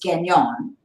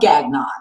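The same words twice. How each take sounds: First: The name is pronounced with a French accent. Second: The name is pronounced with a plain English accent. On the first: It honours the family's French heritage. "I wanted to pronounce it the French way" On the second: It is easy for people to say. "now it's just plain old Gagnon"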